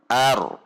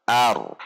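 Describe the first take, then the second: The two takes are said the same way.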